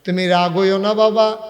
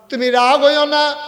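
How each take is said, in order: First: Louder acted plea, slightly raised; tearful pleading. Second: High, loud desperate acted plea; tearful pleading. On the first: Woman begs Omar not to be angry, tearful plea. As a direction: begin pleading, voice lifting. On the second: Woman begs Omar's forgiveness, high wailing plea. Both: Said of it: "মহিলা কান্দে আর কয়".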